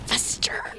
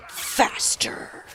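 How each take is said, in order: First: Unvoiced whispered demand, slow and creepy; menacing whisper. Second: Low breathy whispered threat; menacing whisper. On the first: Repeating the niece's line to friends, whispered menace. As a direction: hiss it like a spooky child. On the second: Retold or imitated. Niece glaring up at uncle, demanding he speed up, whispered menace. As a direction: whisper it like a creepy little villain. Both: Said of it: "glares up and goes".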